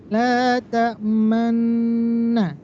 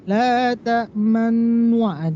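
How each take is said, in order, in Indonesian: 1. Akhirannya 'manna', bibir hanya sedikit dibulatkan. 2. Akhirannya berbunyi w, 'manwa'. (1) "Sedikit saja majukan" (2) "Jangan sampai manwa, itu salah"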